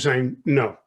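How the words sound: The pitch falls at the end. The speaker calls it right. "when it drops at the end"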